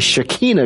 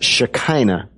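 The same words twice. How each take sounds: First: The middle vowel sounds like 'ee'. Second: The middle vowel sounds like 'eye'. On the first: The speaker calls it right. "all of their I's sound like E's. So it's actually Shekinah glory" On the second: The speaker calls it wrong. "I've always heard it pronounced Shekinah"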